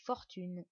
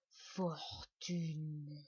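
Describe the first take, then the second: First: "Fortune" short and firm, falling at the end; emphatic repeat. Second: "fortune" slow and stretched, pitch dropping; drawn-out word. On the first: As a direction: hit "Fortune" to drive it home. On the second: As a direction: linger on "fortune" like a treasure. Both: Acted. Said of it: "vous m'avez bien entendu".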